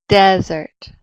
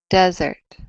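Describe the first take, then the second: First: The stress is on the first syllable. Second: The stress is on the first syllable.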